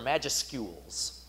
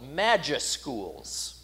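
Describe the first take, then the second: First: It has a 'you' sound in the middle. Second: It has no 'you' sound in the middle.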